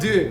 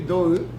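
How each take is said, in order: First: The vowel is short and clipped. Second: The vowel is held long. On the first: The speaker calls it wrong. "not do" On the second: The speaker calls it right. "Maybe it's better to spell it D O U"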